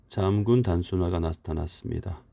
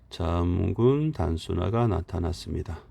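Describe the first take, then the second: The two takes are said the same way.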